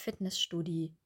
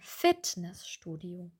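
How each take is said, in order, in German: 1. Die Betonung liegt auf Studio. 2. Die Betonung liegt auf Fitness. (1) "Wir sagen nicht Fitnessstudio, Studio" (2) "wir sagen Fitnessstudio"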